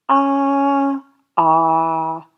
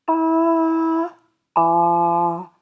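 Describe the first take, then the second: The two takes are said the same way.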